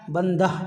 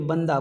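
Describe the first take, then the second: First: The word ends with an audible h sound. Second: The word ends in a plain vowel without h. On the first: The speaker calls it wrong. "बंदा बंदा नहीं बोलते" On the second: The speaker calls it right. "बल्कि बंदा बोलते हैं, तो यहाँ पे हा की आवाज़ नहीं होती है"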